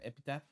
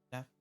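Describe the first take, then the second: First: The 'ph' is said with a P sound. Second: The 'ph' is said with an F sound. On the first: "I say like epitaph, like with like pa, like ph" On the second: "she said like we f epitaph"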